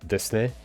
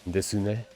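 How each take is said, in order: First: The u after the s is silent. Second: The u after the s is audible. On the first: "There's no u, it's just des" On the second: "I hear the the U a little bit more"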